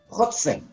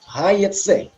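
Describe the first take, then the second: First: The first vowel is an o sound. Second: The first vowel is an ai sound. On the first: This is how the word is written. "Ketifnya hotse" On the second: This is how the word is read aloud. "tapi kerinya hayetse"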